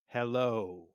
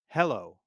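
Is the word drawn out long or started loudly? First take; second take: drawn out; started loudly. First: The word is held out long and smooth. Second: The word starts loud with a strong attack. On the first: "play the note at full value or long" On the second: "emphasize the beginning of the note or start the note louder. You might say hello like this"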